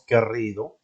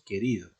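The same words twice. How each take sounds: First: The r is a strong rolled trill. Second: The r is a soft single tap. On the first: The speaker calls it wrong. "no decimos querido" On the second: The speaker calls it right. "Es una R pronunciada de forma suave"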